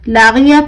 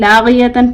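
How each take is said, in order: First: The word stops short on a final -ya sound. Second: The word ends with a full -yatan ending. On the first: The speaker calls it right. "लागिया पढ़ना है" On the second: The speaker calls it wrong. "लागियतन पढ़ना है"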